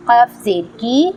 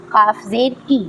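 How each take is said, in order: First: Said in the usual way. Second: काफ and की with a back-of-throat Q. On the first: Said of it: "इसे normally पढ़ना है". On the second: Shown as a demonstration. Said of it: "हलक से पढ़ना है".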